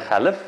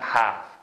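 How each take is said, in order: First: The L is sounded in the word. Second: The L is silent in the word. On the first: The speaker calls it wrong. "xalif deb o'qisa bo'lmaydi" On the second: The speaker calls it right. "O'tirigi ma l talaffuz qilmaydi"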